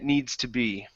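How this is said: The voice falls at the end. The speaker calls it right. "we're going to go down"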